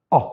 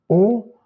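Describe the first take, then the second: First: O short, with the mouth half open. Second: O loud, high and closed. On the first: Teacher comparing the two vowels, half-open O. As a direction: open the O up, rounded but looser. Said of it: "mi-ouverte". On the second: Teacher comparing the two vowels, closed O. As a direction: punch a tight, rounded, closed O. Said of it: "mais moins par rapport à". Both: Shown as a demonstration.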